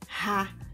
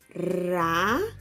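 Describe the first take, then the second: First: The R is a rasping sound in the throat. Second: The R is made with the tongue tip. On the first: "Som forte. ... o som do R escorrega na garganta" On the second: "Som fraco. Quando o R, o som do R treme a língua"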